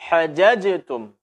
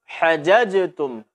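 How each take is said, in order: Both takes have the same delivery.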